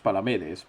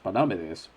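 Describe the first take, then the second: First: The second syllable is not stressed. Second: The stress falls on the second syllable. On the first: The speaker calls it right. "we're fairly sure it's Palamedes" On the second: The speaker calls it wrong. "Palamedes would have an accent on the second A"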